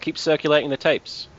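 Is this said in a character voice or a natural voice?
natural. It is said in the speaker's natural voice.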